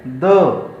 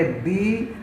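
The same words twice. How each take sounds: First: "द" pronounced "duh"; weak form before consonants. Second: "दी" pronounced with long ee; strong form before vowels. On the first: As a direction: say "द" with an uh vowel, standing alone. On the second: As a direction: say "दी" as "dee". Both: Shown as a demonstration. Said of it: "इसको क्या पढ़ेंगे?".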